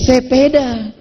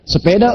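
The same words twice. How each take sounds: First: It is said in a Medan accent. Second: It is said in a Banten accent.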